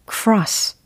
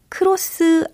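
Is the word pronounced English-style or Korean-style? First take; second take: English-style; Korean-style. First: It is said with English-style sounds. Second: It is said with Korean-style syllables. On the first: The speaker calls it right. "cross. 그렇죠" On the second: The speaker calls it wrong. "크로스 아니고"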